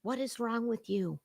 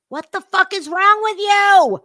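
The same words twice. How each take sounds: First: Muttered disbelief; quiet disbelief. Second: High, loud furious question; outraged shout. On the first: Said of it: "repeated louder". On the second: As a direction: yell it in disbelief. Escalated outrage repeat. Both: Real, not acted.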